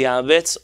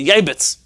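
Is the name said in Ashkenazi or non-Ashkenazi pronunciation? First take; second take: non-Ashkenazi; Ashkenazi. First: The name is said in a non-Ashkenazi pronunciation. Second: The name is said in an Ashkenazi pronunciation.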